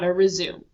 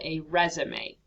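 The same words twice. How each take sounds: First: It is said like the verb to continue. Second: It is not said like the verb to continue. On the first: It means resuming an activity. The speaker calls it wrong. "not a resume" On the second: It names the job application document. The speaker calls it right. "it is called a resume"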